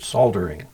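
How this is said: The L in the word is pronounced. "the same way the British do it"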